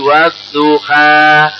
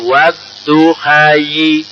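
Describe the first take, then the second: First: The word ends with an open 'a' vowel. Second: The word ends with an added 'yi' sound. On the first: The final letter is not read as a ya. "karena tidak dibaca ya menjadi wadduha" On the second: The final letter is read as a ya. "Seandainya itu berfungsi ya, bacaannya wadduhayi"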